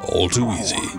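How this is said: It is said calmly and nonchalantly.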